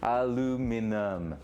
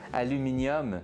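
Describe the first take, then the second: First: The word has four syllables, ending in -num. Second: The word has five syllables, ending in -nium. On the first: The speaker calls it right. "there's no I at the end" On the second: The speaker calls it wrong. "It's aluminum and not nyum"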